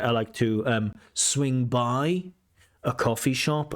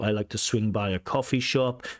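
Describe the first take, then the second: First: There is a hesitant pause before 'swing by'. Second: It flows smoothly with no pause before 'swing by'.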